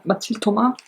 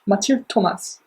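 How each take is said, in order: First: Mathilde Thomas said the French way, Ma-TEELD to-MA, with no final s; French pronunciation. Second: Said in the usual way. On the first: Shown as a demonstration. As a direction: give Mathilde Thomas a French sound and drop the s. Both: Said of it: "in French".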